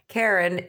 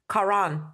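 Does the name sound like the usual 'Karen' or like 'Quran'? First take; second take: Karen; Quran. First: It is said like the common name Karen. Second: It is said like the word Quran. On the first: The speaker calls it wrong. "a lot of people just say Karen" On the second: The speaker calls it right. "It's Karan. Like the Quran"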